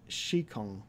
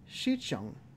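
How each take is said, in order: First: The second syllable starts with a K sound. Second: The second syllable starts with a chi sound. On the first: The speaker calls it wrong. "Would it even be a K sound? No" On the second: The speaker calls it right. "it'd be a chi sound, right? ... That sounds about right"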